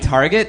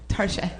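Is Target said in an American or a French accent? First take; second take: American; French. First: It is said with a plain American pronunciation. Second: It is said with a French-sounding pronunciation.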